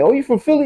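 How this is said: It is said in an excited, happy tone.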